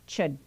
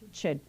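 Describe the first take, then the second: Both takes have the same delivery.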